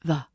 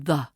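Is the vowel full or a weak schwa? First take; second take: schwa; schwa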